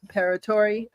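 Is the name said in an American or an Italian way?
American. The name is said with plain American sounds.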